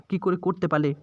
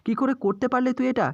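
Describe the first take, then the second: First: Broken repeat. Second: Anguished cry. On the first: Mother repeating the question to her son, subdued and broken. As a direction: let it sink, defeated. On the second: Mother crying out at her son, high anguished plea. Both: Acted.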